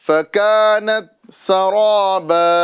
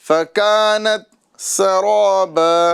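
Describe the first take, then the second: Both takes have the same delivery.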